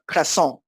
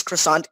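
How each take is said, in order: First: Croissant said the French way, "krwa-SON", final t silent; French pronunciation. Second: Said in the usual way. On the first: Retold or imitated. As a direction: mimic a non-French speaker saying croissant in French. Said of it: "isn't French pronounces croissant". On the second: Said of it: "when someone who, uh, isn't French".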